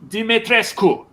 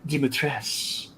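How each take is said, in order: First: The name is said the native Romanian way. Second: The name is said the English, game-style way. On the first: The speaker calls it right. "the Romanians are like, ... It's Dimitrescu" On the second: The speaker calls it wrong. "you pronounce this name Dimitrescu"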